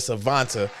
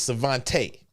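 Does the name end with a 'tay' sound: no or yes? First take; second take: no; yes. First: The name does not end with a 'tay' sound. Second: The name ends with a 'tay' sound. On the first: The speaker calls it wrong. "Am I saying that right?" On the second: The speaker calls it right. "it is Tay at the end"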